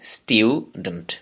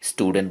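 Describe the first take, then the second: First: The first syllable is 'styoo' with a y sound. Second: The first syllable is 'stoo' with no y sound. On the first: "এটার British accent স্টিউডেন্ট" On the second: "নিশ্চয়ই স্টুডেন্ট বলি"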